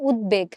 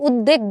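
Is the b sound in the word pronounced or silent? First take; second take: pronounced; silent. First: The b sound in the word is pronounced. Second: The b sound in the word is silent. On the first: The speaker calls it right. "এই শব্দটার শুদ্ধ উচ্চারণ হচ্ছে উদ্বেগ" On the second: The speaker calls it wrong. "আমরা কিন্তু উদ্বেগ বলি না"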